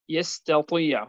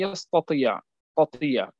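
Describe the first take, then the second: First: The t sound is plain and light. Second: The t sound is heavy and emphatic.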